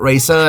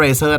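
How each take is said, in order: First: "Razer" in a native English style; English pronunciation. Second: "Razer" with a Thai accent; Thai pronunciation. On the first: Vlogger shows viewers how foreigners say "Razer" in an English pronunciation. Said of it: "ฝรั่งอ่านว่า Razer". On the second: Vlogger shows viewers how Thais say "Razer" with Thai pronunciation. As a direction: say "Razer" the way Thai people call it, in Thai sounds. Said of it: "คนไทยเรียกก็ Razer". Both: Shown as a demonstration.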